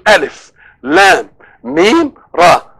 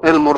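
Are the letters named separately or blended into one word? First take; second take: named separately; blended. First: Each letter is spoken separately by its name. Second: The letter sounds blend into one short word. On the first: "اسماء حروف" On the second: "لو نطقناها مسميات حروف تبقى ايه؟ المر"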